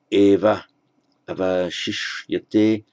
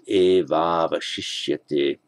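First: The two a vowels are said separately. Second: The two a vowels merge into one long a.

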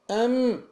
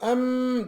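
First: The nasal m is held only briefly. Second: The nasal m is held long and exaggerated. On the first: The speaker calls it right. "Em bu kadar" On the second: The speaker calls it wrong. "em diye onu tutmayacağız"

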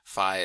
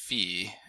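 First: It is pronounced the westernized American way. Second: It is pronounced like the original Greek. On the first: "is the more westernized American current version" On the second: "which would be more like the original Greek pronunciation"

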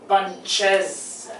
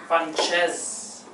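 First: The word is said with two syllables. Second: The word is said with two syllables.

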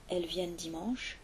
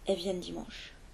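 First: The first word is said fully as 'elle'. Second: The first word is reduced to a bare 'è'. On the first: "Au lieu d'entendre elles" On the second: "on entend est"

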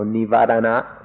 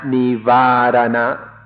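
First: The second syllable has a short ah vowel. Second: The second syllable has a long ah vowel. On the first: The speaker calls it right. "The second is a short ah" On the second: The speaker calls it wrong. "Not nivarana, like I sometimes say it. ... not a long ah"

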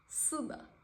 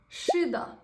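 First: The word begins with an 's' sound. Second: The word begins with an 'sh' sound.

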